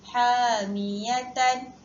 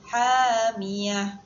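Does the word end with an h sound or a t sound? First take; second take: t sound; h sound. First: The word keeps its final t sound. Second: The word ends with an h sound. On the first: The reading continues without stopping. "sebagai contoh hamiyatan" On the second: The reader stops at this word. "cara bacaan ketika waqaf adalah hamiyah"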